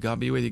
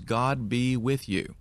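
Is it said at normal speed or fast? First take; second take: fast; normal. First: It is said quickly, words running together. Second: It is said at a normal, unhurried pace.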